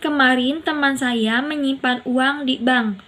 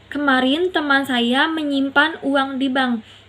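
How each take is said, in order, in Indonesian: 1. Kata di bank mendapat tekanan utama. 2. Kata menyimpan mendapat tekanan utama. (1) "Di bank bukan pegadaian" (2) "Menyimpan bukan menukar"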